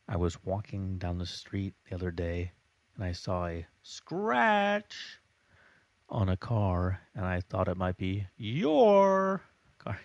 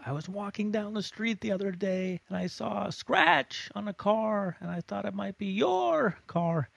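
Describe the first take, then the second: First: Normal volume, with a few words much louder. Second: All shouted, with a few words slightly louder.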